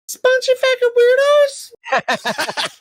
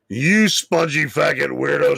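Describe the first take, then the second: First: It is said in a high voice. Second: It is said in a low voice.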